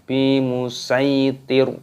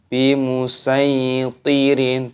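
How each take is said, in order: First: The word ends on a stopped r sound. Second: The word ends with an added -in sound. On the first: The speaker calls it right. "Ro-nya di sini karena tanda waqaf, maka berhenti. Di sini dimatikan" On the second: The speaker calls it wrong. "bukan bimusaitirin, bukan seperti itu"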